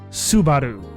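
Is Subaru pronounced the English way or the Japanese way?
Japanese. It is said with a Japanese-style pronunciation. This is the way picked up from the games. "I have really come to saying Subaru"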